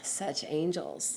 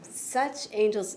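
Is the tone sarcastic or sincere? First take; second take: sarcastic; sincere. First: It is said with a scornful, sarcastic tone. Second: It is said with a plain, sincere tone. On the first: They are not angels at all. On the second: It points to these particular angels.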